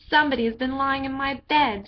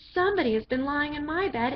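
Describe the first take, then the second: First: It is said in a great big voice. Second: It is said in a little wee voice.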